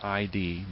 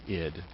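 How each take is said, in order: First: It is said as two separate letter names. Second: It is said as one single short word. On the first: The speaker calls it wrong. "I know it looks like I D" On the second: The speaker calls it right. "it's actually id, is how it's pronounced"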